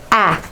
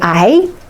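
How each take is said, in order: First: The letter is said as its short sound. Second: The letter is said as its alphabet name. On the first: The speaker calls it right. "I need to hear from you the sounds" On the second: The speaker calls it wrong. "don't say A"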